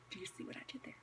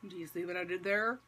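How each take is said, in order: First: Barely audible whispered repeat; hushed aside. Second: Said in the usual way. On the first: Real, not acted. Preacher nudging listeners about his clever question, whispered.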